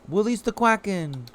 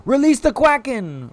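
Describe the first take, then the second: First: "Release" said as "wuh-lease", high-pitched; R turned to W. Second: High, loud "Release", said with a proper R; mock epic command. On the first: Pretend. Streamer joking to chat, "Release" babyishly with a W. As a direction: say "Release" with a W in place of the R. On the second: Streamer unleashing chat's quacks, loud mock-epic call. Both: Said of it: "Or should I say woolies".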